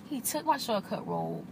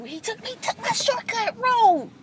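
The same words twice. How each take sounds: First: Quiet mutter. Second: "he took my shortcut road" pitched much higher in disbelief; surprised exclaim. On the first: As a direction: mutter "He took my shortcut road" under the breath. Repeats line, second quiet. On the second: Repeats line, first raised. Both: Real, not acted.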